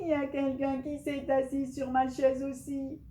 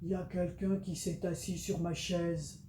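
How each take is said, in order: First: It is said in a loud, shouting voice. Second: It is said in a big, deep voice.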